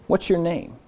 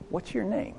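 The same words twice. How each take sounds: First: Soft, tender asking, falling; gentle question. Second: Soft, high, tender asking; gentle question. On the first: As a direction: ask it kindly. Jesus asking, repeated. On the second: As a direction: ask it gently, like reaching out to him. Jesus gently asks the man. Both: Acted.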